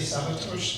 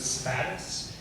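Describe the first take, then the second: First: The name has a fully Slovak pronunciation. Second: The name has an Americanized English pronunciation. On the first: The original Slovak form. "I don't quite dare to say" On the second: The family's usual form in the U.S. "my family's always pronounced it"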